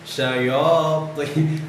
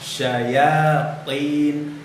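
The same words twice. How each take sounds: First: The ya sound is darkened by the heavy t. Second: The ya sound is plain and light. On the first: The speaker calls it wrong. "ya-nya ikut terpengaruh dengan huruf to" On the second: The speaker calls it right. "Harusnya kan normal aja ya"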